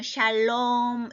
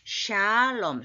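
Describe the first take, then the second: First: The stress falls on the second syllable. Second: The first syllable is lengthened and stressed. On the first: The speaker calls it wrong. "롬에다 힘을 주는데 ... 그렇게 하면 안 되게" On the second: The speaker calls it right. "샤의 샤를 길게 해야 돼"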